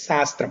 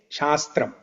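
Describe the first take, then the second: First: The word begins with an s sound. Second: The word begins with a sh sound. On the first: This is how it is said in Telugu. "it is" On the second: This is not how it is said in Telugu. "we don't say"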